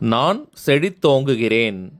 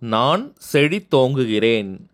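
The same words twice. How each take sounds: Both takes have the same delivery.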